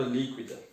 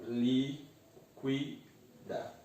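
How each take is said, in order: First: Said in the usual way. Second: LÍQUIDA slowly split, lí-qui-da; syllable by syllable. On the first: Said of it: "Eu separo líquida". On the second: Shown as a demonstration. Teacher doing the first step, LÍQUIDA in three slow separate syllables. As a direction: say LÍQUIDA with gaps between its syllables. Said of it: "Eu separo".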